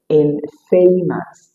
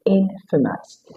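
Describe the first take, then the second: First: The second syllable has a long vowel. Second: The second syllable has a short vowel. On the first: The speaker calls it wrong. "You don't say infamous" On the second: The speaker calls it right. "it is infamous. You have a short sound at the second and the final syllable"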